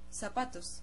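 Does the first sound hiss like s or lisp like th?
s. The first sound is a hissing s. This is how it is said in Latin America. "we say zapatos, like an S"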